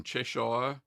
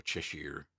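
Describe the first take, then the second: First: Said in the usual way. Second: Best go at an English accent on Cheshire. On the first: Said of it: "and that's how I say it". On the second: Shown as a demonstration. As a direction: say "Cheshire" softer and lower, as the English would. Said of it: "it's my best English accent".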